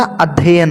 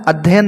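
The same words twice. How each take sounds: First: अध्ययन with a double y-sound in the middle; corrected अध्ययन. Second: अध्ययन with the middle ya-sound run together; mispronounced अध्ययन. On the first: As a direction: say अध्ययन as "adhyayan", both y's sounded. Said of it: "बीच में दो या होते हैं". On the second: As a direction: say अध्ययन as "adhyen", one y. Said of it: "अध्ययन होता है". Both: Shown as a demonstration.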